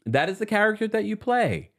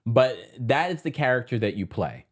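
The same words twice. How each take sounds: First: "That is the character that you play" said much higher; higher insistent repeat; higher emphatic repeat. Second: Said in the usual way. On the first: Real, not acted. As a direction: lift the repeat up high to insist. Repeats the excuse for the actress.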